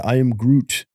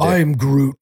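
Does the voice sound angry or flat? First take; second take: flat; angry. First: It is said flatly, without expressive inflection. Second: It is said with an angry, forceful tone. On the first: Nothing in particular is being said. The speaker calls it wrong. "I didn't feel like you were saying something" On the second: The speaker is upset about something. The speaker calls it right. "He's angry"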